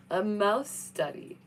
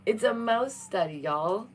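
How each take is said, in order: First: Slow, odd put-on voice on "A mouse study"; mock deadpan voice. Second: Said in the usual way. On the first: Shown as a demonstration. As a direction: drag out "A mouse study" in a silly voice. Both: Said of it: "repeated differently".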